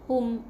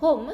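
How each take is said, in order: First: It has a short pure 'u' vowel. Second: It has an English-like 'o' glide vowel. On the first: The speaker calls it right. "hum bukan home" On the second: The speaker calls it wrong. "macam orang putih cakap home, ni salah"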